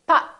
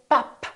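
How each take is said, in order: First: The final p is held unreleased. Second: The final p is released audibly. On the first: The speaker calls it right. "So I didn't release my lips. I said pop" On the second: The speaker calls it wrong. "I didn't say pop"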